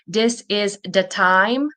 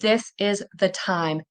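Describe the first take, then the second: First: The th sounds are replaced by another sound. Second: The th sounds are pronounced as true th. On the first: The speaker calls it wrong. "instead of saying" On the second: The speaker calls it right. "you'll start saying"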